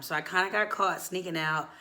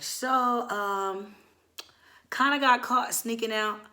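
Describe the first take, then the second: First: Said in the usual way. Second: High, hesitant admission with pauses; stall, then timidly own up; sheepish confession. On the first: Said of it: "let me say it one more time". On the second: Retold or imitated. Nervously confessing to mom in retelling.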